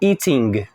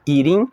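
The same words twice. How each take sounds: First: It ends with a hard G sound. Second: It ends without a hard G sound. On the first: The speaker calls it wrong. "mas não vou falar eating" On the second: The speaker calls it right. "eu falo eating"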